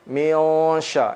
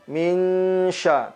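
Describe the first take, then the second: First: The nasal sound before sh is heavy and rounded. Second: The nasal sound before sh is light and thin. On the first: The speaker calls it wrong. "tidak boleh kita baca miosha miosha ya" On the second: The speaker calls it right. "maka bunyi huruf ikhfanya pun menipis"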